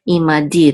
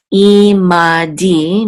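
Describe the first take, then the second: First: Imadi joined up, ending on stressed DI. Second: I, MA, DI slowly drawn out; syllable by syllable. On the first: Teacher showing the accent, stress on final DI in imadi. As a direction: land on DI in imadi. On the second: Teacher introducing a Hebrew word, imadi in slow separate syllables. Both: Shown as a demonstration. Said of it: "The accent is on the last syllable".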